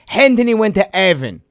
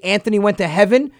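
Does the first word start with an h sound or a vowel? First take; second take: h sound; vowel. First: The first word starts with an added h sound. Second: The first word starts with a plain vowel sound. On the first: "he would go" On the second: "if he were to say Anthony went to heaven"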